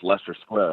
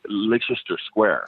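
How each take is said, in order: First: The first word is said with two syllables, like Lester. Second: The first word is said with three syllables. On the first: The speaker calls it right. "that's pronounced Leicester Square" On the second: The speaker calls it wrong. "what I was pronouncing as Leicester Square"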